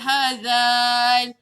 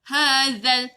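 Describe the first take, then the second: First: The vowel before the L is drawn out long. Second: The vowel runs straight into the L, short. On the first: The speaker calls it wrong. "Tak boleh baca panjang, tak boleh baca hazal" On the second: The speaker calls it right. "Dia kena straight, shortcut je"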